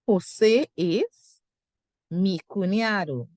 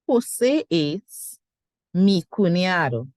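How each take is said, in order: First: The sentence is broken up with a pause. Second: The same.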